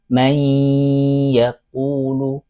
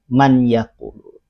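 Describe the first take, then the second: First: The n sound disappears, merging into the y. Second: The n sound is clearly pronounced before y. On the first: This is how it is read. "tapi dibaca may yaqulu" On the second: This is how it is written. "tulisannya man yaqulu"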